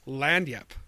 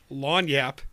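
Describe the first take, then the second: First: The first syllable sounds like 'land', with n-sound. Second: The first syllable sounds like 'lawn', without n-sound. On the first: The speaker calls it right. "It's land yap" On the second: The speaker calls it wrong. "It's not lawn yap"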